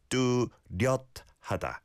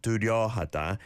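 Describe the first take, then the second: First: 뚜렷하다 with 렷 closed by a stop; bottom consonant sounded. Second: 뚜려하다 with 려 left open, no stop; missing final consonant. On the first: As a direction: break 뚜렷하다 after a cut-off 렷. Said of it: "There's a shiot 받침". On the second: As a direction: run 려 straight into 하다 in 뚜려하다. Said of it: "So it's not". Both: Shown as a demonstration.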